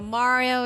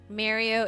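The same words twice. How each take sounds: First: The name is said in an Italian-style way. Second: The name is said in an English way. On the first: "the correct way that like, you know, other Italians I guess say it" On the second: "the enunciated English"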